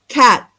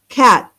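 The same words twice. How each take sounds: Both takes have the same delivery.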